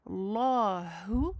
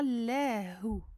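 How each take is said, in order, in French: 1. Le L est épais, avec une bouche pleine et creuse. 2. Le L est fin, avec une bouche légère et avancée. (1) "je fais un gros lemme. Je le gonfle bien" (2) "et non pas Lahu, comme dans la basmala"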